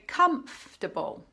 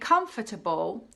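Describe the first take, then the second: First: A sound or syllable is dropped. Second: Every syllable is pronounced in full. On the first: "you can say" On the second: "Instead of saying"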